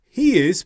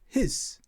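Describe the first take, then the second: First: Both words are said fully and separately. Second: The words are squeezed into one short syllable. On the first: "In the written form" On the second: "when we're speaking quickly"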